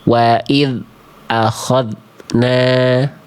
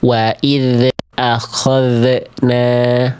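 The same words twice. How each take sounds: First: The dh sound is cut off abruptly. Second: The dh sound bounces with a released echo. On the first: "terputus bunyi dzalnya" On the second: "dibaca memantul"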